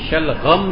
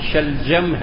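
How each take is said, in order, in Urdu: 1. درمیانی حرف gh کی آواز ہے۔ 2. درمیانی حرف j کی آواز ہے۔ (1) "غین سے نہیں ہے, شلغم نہیں ہے" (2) "جیم سے, صحیح بولا ہے"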